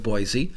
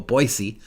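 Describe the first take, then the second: First: Boise is said the usual outside way. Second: Boise is said the local Idaho way.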